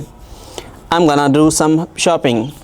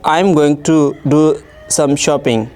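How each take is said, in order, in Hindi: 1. 'Going to' सिकुड़कर 'gonna' हो जाता है। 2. हर शब्द पूरा और अलग-अलग बोला जाता है। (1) "कोई अंग्रेज़ी से बोलेगा इस जुमले को तो हम ऐसे सुनेंगे" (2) "एग्जाम्पल बी है"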